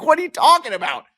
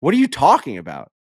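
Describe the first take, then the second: First: Very high-pitched mock yelp of disbelief; incredulous outburst. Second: Mildly raised, incredulous question; lightly acted astonishment; retold disbelief. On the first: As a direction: squeal it in hammed-up astonishment. Retells escalating disbelief at Bernie's reveal. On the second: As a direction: react with baffled disbelief. Retells his disbelief at Bernie's reveal.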